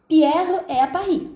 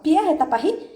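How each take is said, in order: First: The voice falls at the end. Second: The voice rises at the end. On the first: It states that Pierre is in Paris. "tô afirmando que Pierre está em Paris" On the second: It asks whether Pierre is in Paris. "virou uma pergunta"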